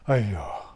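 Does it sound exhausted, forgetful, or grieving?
exhausted. It sounds out of breath after jogging.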